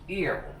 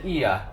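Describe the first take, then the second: First: It is said American style, ending with R. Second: It is said British style, ending without R. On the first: "We say it like ear. ... we use the R sound" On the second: "That's how the Brits say it"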